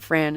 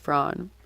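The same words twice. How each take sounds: First: The vowel is the English A sound. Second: The vowel is not the English A sound. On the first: The speaker calls it wrong. "it's not Fran" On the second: The speaker calls it right. "it's Fran"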